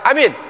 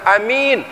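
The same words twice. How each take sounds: First: Both vowels are short. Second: The first vowel is short, the second long. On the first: It means make it secure. "Kalau alifnya pendek, ... ya-nya enggak panjang" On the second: It means the trustworthy one. "Kalau alifnya enggak panjang tapi ya-nya panjang"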